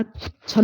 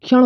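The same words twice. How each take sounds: First: क्षण said as chan; क्षण with ch instead of ksh; wrong form. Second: क्षण with a clear ksh cluster; क्षण spoken kshan, not chan; correct form. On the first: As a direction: mispronounce क्षण with a plain ch. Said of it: "क्षण नहीं". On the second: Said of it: "क्षण होता है". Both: Shown as a demonstration.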